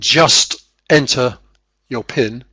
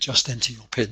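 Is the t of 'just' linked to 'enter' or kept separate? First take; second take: separate; linked. First: The t stays separate from the next word. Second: The t is joined onto the next word. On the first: "instead of saying just enter your PIN" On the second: "the T at the end of just gets attached to the next word"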